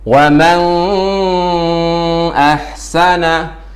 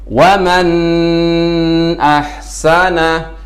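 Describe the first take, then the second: First: The n sound merges into the next sound. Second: The n sound is held too long. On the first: "dengan bacaan yang idgham. Itu juga salah" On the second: "membaca nun terlalu lama ... ini termasuk bacaan yang salah"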